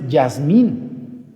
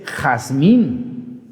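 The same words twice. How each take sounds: First: "Yasmín" drawn out with a Y at the start; wrong Y sound. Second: "Jazmín" very slowly, throaty J; correct Spanish J. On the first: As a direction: say "Yasmín" slowly as yas-MEEN. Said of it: "no es Yasmín". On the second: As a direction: stretch "Jazmín" as has-MEEN. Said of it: "es Jazmín". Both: Shown as a demonstration.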